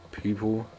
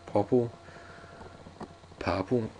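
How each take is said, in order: First: Said in the usual way. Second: "popple", people said with a short "pop" vowel; "popple" with an "ah" sound in place of "ee"; playful mispronunciation. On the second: Pretend. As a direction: toy with the word as "popple", lifting the end. Plays with the word people.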